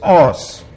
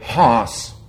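First: The word begins directly with the vowel. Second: The word begins with an h sound. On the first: The speaker calls it right. "it's not pronounced in modern Greek. It's os" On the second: The speaker calls it wrong. "Bible school Greek would say hos"

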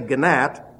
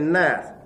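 First: The G is sounded before the N. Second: The G is silent; it starts with N. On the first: The speaker calls it wrong. "You don't say gnat" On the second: The speaker calls it right. "the G and the N are pronounced simply as N"

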